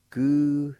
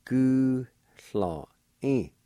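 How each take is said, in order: First: "Gulhöding" said louder as a model; model word. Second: "Gulhöding" drawn out very slowly; slow repeat. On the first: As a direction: present "Gulhöding" clearly. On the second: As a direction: stretch "Gulhöding" out for learners. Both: Shown as a demonstration. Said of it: "Pronounced like this".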